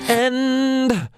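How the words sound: The final n is held long through the nose. The speaker calls it right. "really leaning into that sound"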